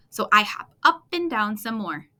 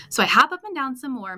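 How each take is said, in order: First: Said in the usual way. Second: Higher and louder, worked-up telling; mad frog. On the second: A narrator's reading. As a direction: push it out like an upset frog. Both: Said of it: "mad like a muskrat".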